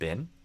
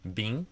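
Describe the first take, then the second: First: The vowel is short, like in 'kit'. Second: The vowel is long, like in 'fleece'. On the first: "but I say bin" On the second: "You did bean instead of bin"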